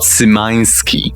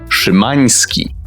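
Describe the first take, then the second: First: The surname is said with English sounds. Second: The surname is said with Polish sounds. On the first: The speaker calls it wrong. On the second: The speaker calls it right. "this is how you pronounce that surname"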